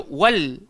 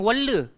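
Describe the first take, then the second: First: The word stops cleanly on the l sound. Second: An extra vowel follows the l sound. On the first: The speaker calls it right. "So dia kena diam je" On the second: The speaker calls it wrong. "Jangan walla"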